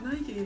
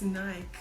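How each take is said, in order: First: The word ends with an 'ee' vowel sound. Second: The word has no 'ee' sound at the end. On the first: This is how Americans say it. The speaker calls it wrong. "It's not Nike" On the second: This is how South Africans say it. The speaker calls it right. "There's no Y at the end. It's Nike"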